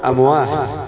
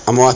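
First: The word ends with an h sound. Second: The word ends with a t sound.

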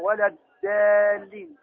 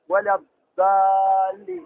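First: The consonant is a thin, plain d sound. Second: The consonant is a thick, emphatic d sound. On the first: "وبعضهم يخرجها دالا رقيقة" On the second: "فبعضهم يخرجها دالا مفخمة"

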